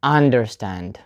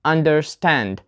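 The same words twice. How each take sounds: First: UNderstand, weight moved onto UN; wrong first-part stress. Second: UnderSTAND, weight on a long STAND; slow "Understand" with the beat on -stand; stress on second part. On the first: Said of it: "not understand". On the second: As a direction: hit STAND in "Understand", keep under- light. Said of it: "we put the stress on the second part". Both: Shown as a demonstration.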